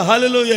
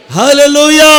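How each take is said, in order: First: Said in the usual way. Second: hallelujah shouted out loud and high; loud hallelujah. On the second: Shown as a demonstration. Preacher leads the congregation in a loud shouted hallelujah. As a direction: belt out hallelujah to lead the crowd. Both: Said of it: "చెప్పాలి గట్టిగా".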